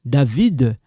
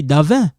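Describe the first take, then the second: First: "David" with the final d sounded; full David. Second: Davin with the final d dropped, ending in a nasal vowel; clipped Davin. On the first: Teacher contrasting the full form for students. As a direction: say "David" fully, d at the end. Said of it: "They just cut it like this". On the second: French teacher demonstrating the clipped casual "Davin" for students. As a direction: say "Davin" as davɛ, no d at the end. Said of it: "Sometimes you're gonna hear people say". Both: Shown as a demonstration.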